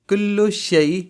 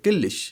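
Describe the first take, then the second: First: Both words are said fully and separately. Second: The words are merged into one short word. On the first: "कुल्लु शई जो होता है" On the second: "उसको शॉर्ट में कहते हैं"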